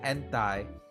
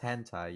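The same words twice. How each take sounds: First: The word starts without an H sound. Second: The word starts with an H sound. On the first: The speaker calls it wrong. "you could say like hentai" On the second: The speaker calls it right. "It doesn't hit the same as hentai"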